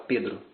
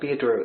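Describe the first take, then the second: First: The name is said with a Brazilian R sound. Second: The name is said with an American R sound. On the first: This is how a native Portuguese speaker says it. "eles não podem falar Pedro, senão tem alguma coisa errada" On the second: This is how Americans will say the name. "Eles vão falar Pedro"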